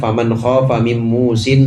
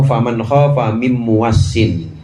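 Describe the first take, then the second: First: The last word has two syllables and a single s. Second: The last word has three syllables and a doubled s.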